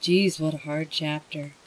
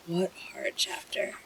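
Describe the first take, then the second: First: Said in the usual way. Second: Whispered to oneself. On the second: Shown as a demonstration. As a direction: breathe it out, spent.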